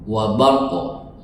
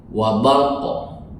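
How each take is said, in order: Both takes have the same delivery.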